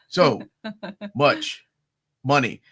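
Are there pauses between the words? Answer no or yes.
yes. There is a pause between each word.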